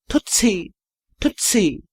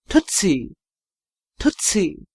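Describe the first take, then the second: The two takes are said the same way.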